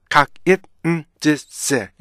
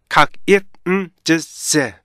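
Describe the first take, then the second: Both takes have the same delivery.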